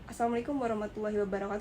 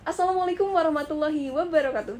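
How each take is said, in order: First: It is said in a plain, ordinary way. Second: It is said loudly and forcefully.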